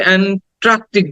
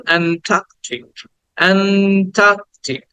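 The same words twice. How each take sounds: First: "অ্যান্ট্রাকটিক" with an extra r straight after t; "ট্রা" in the middle of "অ্যান্ট্রাকটিক"; common mispronunciation. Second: "অ্যান্টার্কটিক" with stretched "টা" and silent r; long vowel, no r. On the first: Teacher showing a common mistake in Antarctic, wrong "ট্রা". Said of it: "আর একটা ভুল আমরা করি". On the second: Teacher correcting the class's mistake, r-less long "টা". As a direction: draw out "টা" in "অ্যান্টার্কটিক" without any r. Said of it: "কোনো আর sound নাই". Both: Shown as a demonstration.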